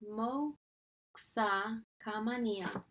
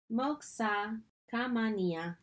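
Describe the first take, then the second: First: "Moxa Kamania" very slowly, broken into pieces; drawn-out teaching repeat of "Moxa Kamania"; sounded out. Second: Slowly pronounced "Moxa Kamania"; measured, teacherly "Moxa Kamania"; careful pronunciation. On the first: Repeats foreign phrase for learners. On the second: First take of foreign phrase. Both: Shown as a demonstration.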